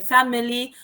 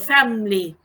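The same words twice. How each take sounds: First: A short schwa is heard after the f. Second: The schwa is dropped, giving fam-ly.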